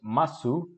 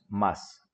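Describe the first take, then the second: First: The final u vowel is clearly pronounced. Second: The final u vowel is dropped entirely. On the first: "lo escribimos masu" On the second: "pero lo pronunciamos más"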